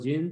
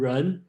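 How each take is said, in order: First: It is said with a Cantonese pronunciation. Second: It is said with a Mandarin pronunciation. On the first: "Cantonese pronunciation kind of like Jin" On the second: "the proper name in today's uh, Romanized Chinese"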